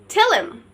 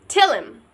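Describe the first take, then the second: No difference in how they are said.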